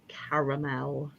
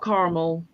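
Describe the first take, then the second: First: It is said the British way. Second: It is said the non-British, American way. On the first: The speaker calls it right. "us Brits do call it caramel" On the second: The speaker calls it wrong. "It's not caramel"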